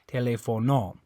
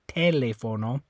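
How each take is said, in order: First: The stress is on the last syllable. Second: The stress is on the first syllable. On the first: "And if you're stressing this O" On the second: "If you if you were stressing this one"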